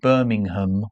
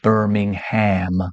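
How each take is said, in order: First: It is said with a British pronunciation. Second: It is said with an American pronunciation.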